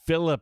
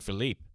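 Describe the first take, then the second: First: The name is said the plain English way. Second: The name is said the European way. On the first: The speaker calls it right. "that's how he identifies" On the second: The speaker calls it wrong. "the European Philippe"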